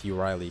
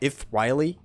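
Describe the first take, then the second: First: The name is said with an English pronunciation. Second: The name is said with a Greek pronunciation. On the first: "I'm still gonna stick with Euryale since it's I'm used to saying that" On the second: "in Greek, ... I think it's pronounced uh"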